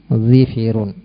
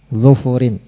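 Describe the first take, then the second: First: Both syllables of the stem have an i vowel. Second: Both syllables of the stem have a u vowel. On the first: "mengkasrah huruf dhad dan huruf fa-nya menjadi dhifirun" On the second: "dengan mendhamah huruf dhadnya dan huruf fa-nya"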